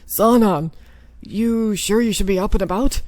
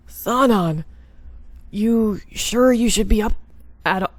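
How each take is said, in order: First: Firm, caring captain; concerned captain voice. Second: Wrong voice for the captain; a voice that slipped off character; botched character voice. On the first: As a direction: call out to him with concern. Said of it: "messing up on everybody's voice". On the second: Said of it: "now I'm messing up on everybody's voice". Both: Acted.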